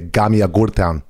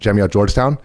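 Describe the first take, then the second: First: It starts with a hard g sound. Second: It starts with a soft j sound.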